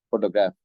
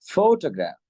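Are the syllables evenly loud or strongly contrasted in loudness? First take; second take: even; contrasted. First: All syllables have about the same loudness. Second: Some syllables are louder and others softer. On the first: This is how local speakers say it. "எப்படி சொல்லுவோம்? Photograph அப்படின்னு சொல்லுவோம்" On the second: This is how native speakers say it. "Red கலர்ல இருக்கிறது எல்லாம் சவுண்ட கூட்டியும், black கலர்ல இருக்கிறது சவுண்ட குறைச்சும்"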